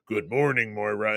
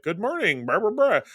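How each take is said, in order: First: Low, distant hint of Charles; a calm voice from nowhere, lightly done; lightly imitated disembodied mentor greeting; Charles's voice. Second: Lightly voiced Moira, rising on the blahs; a breezy greeting, hinted; retold doctor's cheery morning hello. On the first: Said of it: "you hear Charles' voice go". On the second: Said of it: "and she's just like".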